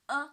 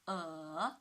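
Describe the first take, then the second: First: The pitch stays high and level. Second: The pitch dips low, then rises. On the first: "The first tone" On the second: "the third tone ... from two to one to four"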